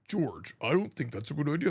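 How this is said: It is said in a deep voice.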